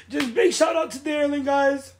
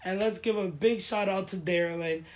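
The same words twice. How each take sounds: First: Higher and louder, calling out the name; excited shout-out. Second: Said in the usual way. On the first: Real, not acted. Thanking her sponsor on camera, a loud excited shout-out. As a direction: hype her up like a real shout-out.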